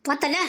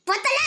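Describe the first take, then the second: First: Lower-pitched question with a final lift; low pressing question. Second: High-pitched question rising at the end; high insistent question. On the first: Asking whether they had seen it, low and pressing. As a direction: ask it low, checking they saw. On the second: Demanding whether they had seen it, high and insistent. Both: Acted.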